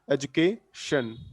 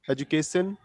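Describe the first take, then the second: First: The middle consonant is an sh sound. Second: The middle consonant is a plain s sound. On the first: The speaker calls it right. "the exact pronunciation of this word is education" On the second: The speaker calls it wrong. "generally people make this kind of mistake"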